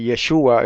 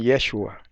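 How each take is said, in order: First: Yeshua stressed on the middle syllable; stress on SHU. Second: Yeshua stressed on the first syllable. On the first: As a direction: say Yeshua with the accent on the U. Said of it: "algunos dicen Ye-, Yeshua". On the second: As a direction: say Yeshua with the accent on the E. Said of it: "otros dicen Yeshua". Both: Shown as a demonstration.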